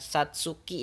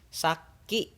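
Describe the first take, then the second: First: A separate tsu syllable is pronounced in the middle. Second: The k is held long as a doubled consonant. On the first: The speaker calls it wrong. "Saki bukan satsuki" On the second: The speaker calls it right. "tapi saki"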